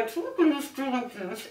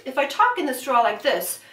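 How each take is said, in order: First: Softer, muffled words through a straw; talking through a straw. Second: Said in the usual way. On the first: Shown as a demonstration. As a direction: speak into the straw.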